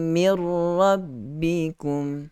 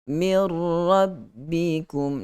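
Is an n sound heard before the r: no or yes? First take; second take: no; no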